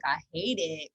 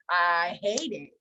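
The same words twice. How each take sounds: First: Said in the usual way. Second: "I hate it" stretched very slowly; drawn-out emphasis. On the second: Real, not acted. Repeats dislike, stretched for emphasis.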